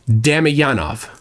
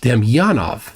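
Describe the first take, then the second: First: The stress falls on the first syllable. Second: The stress falls on a later syllable. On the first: The speaker calls it wrong. "American in me wanted to pronounce uh, the syllable, the stress the first" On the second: The speaker calls it right. "That sounds better"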